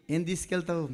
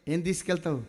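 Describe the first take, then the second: No difference in how they are said.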